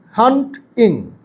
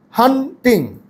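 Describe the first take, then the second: First: "হান্টিং" split as hant-ing, T closing first syllable; split by root. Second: "হান্টিং" split as han-ting, pause before the T; split as spoken. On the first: Teacher showing syllable division, "হান্টিং" as hant-ing. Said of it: "কিন্তু হান্টিং". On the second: Teacher showing the usual spoken split, "হান্টিং" as han-ting. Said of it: "আমরা কি হান্টিং এরকম উচ্চারণ করি". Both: Shown as a demonstration.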